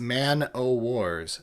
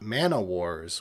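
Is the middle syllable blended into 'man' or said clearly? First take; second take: clearly; blended. First: The middle 'o' is said clearly and separately. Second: The middle 'o' blends into 'man' as one word. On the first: The speaker calls it right. "That's Man O Wars" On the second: The speaker calls it wrong. "not Mana Wars, which sounds like an offshoot of Magic"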